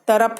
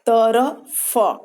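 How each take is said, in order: First: The final consonant is an aspirated ph sound. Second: The final consonant is an f sound. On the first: The speaker calls it wrong. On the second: The speaker calls it right.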